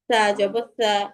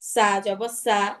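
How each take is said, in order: First: The consonant is a soft th sound. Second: The consonant is a hard hissing s sound. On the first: The speaker calls it right. "তাহলে আমাদের পারফেক্ট উচ্চারণটা আসবে" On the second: The speaker calls it wrong. "না হলে কি হয় এরকম উচ্চারণ হবে"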